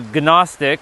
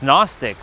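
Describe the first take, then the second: First: The initial G is pronounced before the N. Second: The initial G is silent, starting with N. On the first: "Some do say Gnostic" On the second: "even though there's a G in front of that N"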